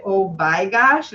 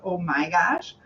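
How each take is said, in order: First: "by gosh" with a B where "my" should be, slow; lightly imitated Dutch mother, "by" for "my"; mother's Dutch slip. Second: Said in the usual way. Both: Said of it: "instead of".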